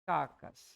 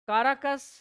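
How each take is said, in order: First: It is said with two syllables, kaa-kas. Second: It is said with three syllables, ka-ra-kas. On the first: The speaker calls it right. "ऐसे" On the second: The speaker calls it wrong. "काराकस बोलते हैं इसका हम"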